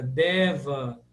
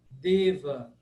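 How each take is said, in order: First: Deva with an open E. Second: Deva with a closed E; closed 'e' vowel in Deva. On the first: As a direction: say 'DEH-va' for Deva. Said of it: "falar esse som sempre aberto". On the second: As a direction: say 'DAY-va' for Deva. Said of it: "sempre fechado". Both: Shown as a demonstration.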